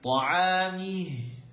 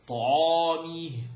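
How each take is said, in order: First: The ayn sound is kept light and thin. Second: The ayn sound is made heavy and thick. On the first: The speaker calls it right. "I've never seen ayn on a heavy list because it's not heavy" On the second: The speaker calls it wrong. "the most common mistake in this word"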